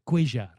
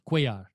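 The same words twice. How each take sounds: First: The name has an Argentine Spanish pronunciation. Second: The name has a Mexican Spanish pronunciation. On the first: This is how the fighter's own people say the name. "In Argentina, they pronounce things a little bit different" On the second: This is how North Americans read the name. "North American Latinos, Mexicans, okay, they say Cuellar"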